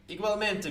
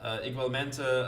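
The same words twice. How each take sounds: First: Igualmente said high and quick, stress on "men"; "igualmente" tossed off high with a falling end; a first, unsure go at "igualmente"; first try at Spanish. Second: A corrected, careful "igualmente"; careful retry. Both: Shown as a demonstration. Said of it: "I'm sorry if I pronounced that incorrectly".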